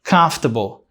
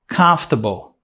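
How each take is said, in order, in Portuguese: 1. A tônica está na primeira sílaba. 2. A tônica está na primeira sílaba.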